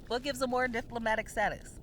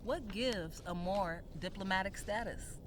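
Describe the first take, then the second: First: Firm repeat of "What gives a Moor diplomatic status?" with weight on "a"; emphatic repeat. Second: Said in the usual way. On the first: Shown as a demonstration. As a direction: say it again like you mean it. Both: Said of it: "the above forward question".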